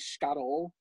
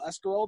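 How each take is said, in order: First: The first syllable is dropped, Calabrian style. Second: The word is said in full.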